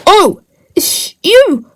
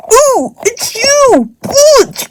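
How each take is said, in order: First: Said in the usual way. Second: Pitched up and slow, a lightly voiced troll; lightly higher character greeting; high puppet voice. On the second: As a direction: stretch it out in a higher figure voice. Another figure greets Branch.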